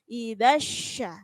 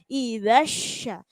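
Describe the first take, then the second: The two takes are said the same way.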